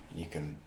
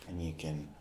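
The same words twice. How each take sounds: The two takes are said the same way.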